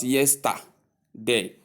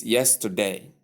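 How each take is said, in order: First: "yesterday" with a full, separated middle syllable, yes-tah, day; mispronunciation. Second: "yesterday" with a schwa in the middle; correct pronunciation. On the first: Teacher rejecting the error for learners, mispronunciation. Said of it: "it is not". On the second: Teacher correcting the error for learners, correct pronunciation. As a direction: say yesterday as YES-tuh-day, middle softened. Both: Shown as a demonstration.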